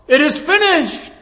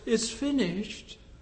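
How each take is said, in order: First: It is shouted loudly and triumphantly. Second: It is said quietly and flatly.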